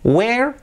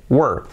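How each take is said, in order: First: "Where" as high rising "we-er"; two-syllable where. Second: "were" as a falling "wur"; short "were" with no e, straight into R; one-syllable were. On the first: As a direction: lift "Where" high with a clear e. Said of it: "Where son dos sílabas". ("Where" agudo y ascendente, dos sílabas) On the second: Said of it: "este es uno, were". ("were" una sílaba, sin e, descendente) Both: Shown as a demonstration.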